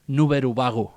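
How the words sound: It is said with a Japanese-style pronunciation.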